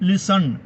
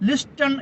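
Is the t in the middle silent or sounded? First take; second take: silent; sounded. First: The t in the middle is silent. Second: The t in the middle is sounded. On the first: "പക്ഷേ വായിക്കേണ്ടത് ലിസൺ" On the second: "ലിസ്റ്റൺ എന്ന് എഴുതുന്നു"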